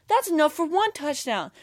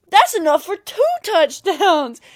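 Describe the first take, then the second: First: Higher-pitched imitation of a hyped fan; confident fan boast. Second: TWO touchdowns yelled high and drawn out; escalating fan yell. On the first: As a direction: toss it out as an excited boast. Imitates fan's confident countdown boast. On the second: Retold or imitated. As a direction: shout it slowly like an overconfident fan. Fan's boast escalates to a yell.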